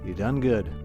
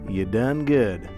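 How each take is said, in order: First: It is said in a plain, everyday accent. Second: It is said in a put-on southern accent.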